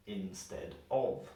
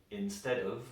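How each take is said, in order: First: Instead of said slowly, of with a full O. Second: Instead of with of as a weak uhv; reduced of. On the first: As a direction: separate instead of, giving of a strong vowel. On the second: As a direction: link instead of, leaving of unstressed. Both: Shown as a demonstration. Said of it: "normally we would pronounce like of".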